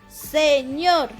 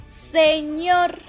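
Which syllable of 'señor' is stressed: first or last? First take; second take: last; last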